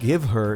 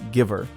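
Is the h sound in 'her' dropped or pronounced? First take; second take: pronounced; dropped. First: The h in 'her' is clearly pronounced. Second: The h is dropped, words run together. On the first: "Instead of give her" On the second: "is giver, all connected"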